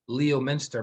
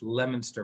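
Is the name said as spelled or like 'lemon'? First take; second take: as spelled; like lemon. First: The name is sounded out as spelled. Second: The name begins like the word lemon. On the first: An outsider says it this way. The speaker calls it wrong. "if you look at the spelling, it's not lemon... she would pronounce it Leominster" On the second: Locals say it this way. The speaker calls it right.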